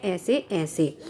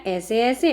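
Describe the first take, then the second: First: Low, soft whimpering moan, faking a tummy ache; tearful moan. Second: Said in the usual way. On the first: Acted. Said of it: "बार बार कहता है". (धीमी कराहती रोनी आवाज़) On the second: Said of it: "Mohan फिर से कहता है".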